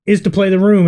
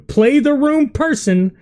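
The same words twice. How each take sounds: First: Said in the usual way. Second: Room drawn out slowly and high; stress on room. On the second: Shown as a demonstration. Commentator stressing room to the comedian. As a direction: lean hard on the word room.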